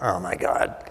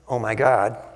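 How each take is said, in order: First: It sounds dismayed, as after a small accident. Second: It sounds reproachful, as if blaming someone.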